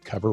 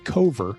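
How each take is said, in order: First: The name is said exactly like the word 'cover'. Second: The name is said unlike the word 'cover'. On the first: The speaker calls it right. "you pronounce it the same as the word cover" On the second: The speaker calls it wrong. "I was originally trying to pronounce it Cover, ... just because of the way it's spelled"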